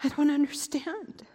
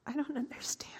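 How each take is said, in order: First: Said in the usual way. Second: Stunned whisper. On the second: Acted. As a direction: breathe it out in shock. Stunned by news he is alive.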